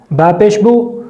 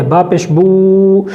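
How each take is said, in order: First: Said in the usual way. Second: با پیش بو slowed right down, بو dragged out; wrongly drawn-out vowels. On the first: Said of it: "جلدی پڑھنے کی تاکید فرمائیں". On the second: Shown as a demonstration. Teacher demonstrating the forbidden long بو, slow and drawn out. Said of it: "اب اس کو اس طرح نہ پڑھنے دیں".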